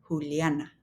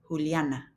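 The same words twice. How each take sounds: First: The name is said with Spanish sounds. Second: The name is said with Spanish sounds.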